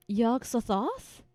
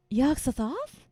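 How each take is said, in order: First: Yog-Sothoth said slowly with a questioning rise; mispronounced name. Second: Yog-Sothoth repeated a bit louder with a rising tune; second try at the name. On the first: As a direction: sound out Yog-Sothoth haltingly, like a guess. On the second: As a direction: try Yog-Sothoth again, unsure, as a question. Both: Retold or imitated. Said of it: "That's not how it's pronounced".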